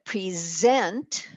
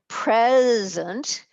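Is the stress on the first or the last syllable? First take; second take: last; first. First: The stress is on the last syllable. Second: The stress is on the first syllable. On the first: It is a verb. "a verb" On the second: It is an adjective. "is an adjective"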